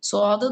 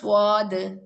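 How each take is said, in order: First: The lips stay unrounded, with no w-like sound. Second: The lips are rounded, giving a w-like sound. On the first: The speaker calls it right. "Heavy ലെറ്റേഴ്സിന് ... ചുണ്ടുകൾ നമ്മൾ കൂർപ്പിക്കുന്നില്ല" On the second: The speaker calls it wrong. "ചില ആളുകൾ സ്വാദ്"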